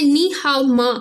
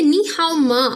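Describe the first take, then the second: First: Said in the usual way. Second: नी हाओ मा repeated slowly, syllable by syllable; careful slow teacher's repetition of नी हाओ मा; slow model repeat. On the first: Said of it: "फिर वो question करते हैं". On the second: Shown as a demonstration. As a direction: spell out नी हाओ मा slowly for the class. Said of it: "ठीक है, नी हाओ मा".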